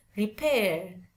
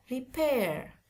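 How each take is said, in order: First: "repair" British-style, final R silent; British demo of "repair", R dropped. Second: "repair" American-style, final R pronounced; American demo of "repair", R sounded. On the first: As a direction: say "repair" ending on the vowel, no R. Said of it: "Kalau orang British". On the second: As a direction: say "repair" higher, falling onto an audible R. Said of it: "Kalau orang American". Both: Shown as a demonstration.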